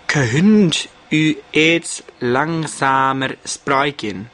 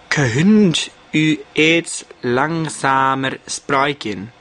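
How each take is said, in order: First: The sentence is pronounced in a stilted way. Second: The same.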